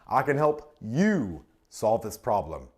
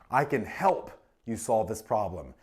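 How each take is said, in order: First: The stress falls on the word you. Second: The stress falls on the word help. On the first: It is about the listener personally. "That makes it personal" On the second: Assistance is being offered. "Emphasizes what? The assistance"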